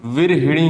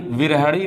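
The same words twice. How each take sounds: First: विरहिणी with a clear hi; correct pronunciation. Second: विरहणी with ha, no i; wrong pronunciation. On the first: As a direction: lean on the hi of विरहिणी. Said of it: "विरहिणी होता है". (विरहिणी में हि साफ़ बोलिए) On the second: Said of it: "विरहणी नहीं होता". (विरहणी को बिना इ के बोलिए) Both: Shown as a demonstration.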